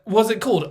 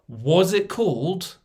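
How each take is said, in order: First: Quick casual question, lightly voiced; quoted wife question. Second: Slow, drawn-out mock innocent ask; drawn-out wife question. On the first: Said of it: "she's like". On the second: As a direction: stretch the question out slowly, deadpan. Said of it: "the question my wife gave me".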